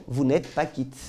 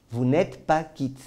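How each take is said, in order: First: Said in the usual way. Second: Pas stressed, vous n'êtes pas quitte said very slowly; slow emphatic repeat. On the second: Shown as a demonstration. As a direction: hammer home pas, word by word. (« pas » appuyé, phrase très lente)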